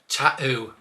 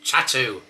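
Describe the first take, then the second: First: The t sound is dropped. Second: The t sounds are clearly pronounced. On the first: This is the common way elsewhere in England. The speaker calls it wrong. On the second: This is the local way. The speaker calls it right.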